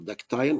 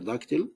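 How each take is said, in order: First: It is said with a British pronunciation. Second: It is said with an American pronunciation.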